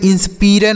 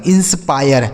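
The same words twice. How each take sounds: First: इंस्पायर said as in-spi-re, short i and a final e; इंस्पायर mispronounced in-spi-re, the way not to say it; wrong pronunciation. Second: इंस्पायर said in-spaa-yar with an aay sound; इंस्पायर as in-spaa-yar, the aay clearly drawn; correct pronunciation. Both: Shown as a demonstration. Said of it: "इसे इंस्पायर नहीं पढ़ेंगे".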